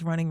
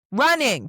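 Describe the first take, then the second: First: Said in the usual way. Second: Running punched high and loud; emphasis on Running. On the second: Real, not acted. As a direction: exclaim Running, higher and louder, with a falling tune. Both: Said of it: "put emphasis on that word".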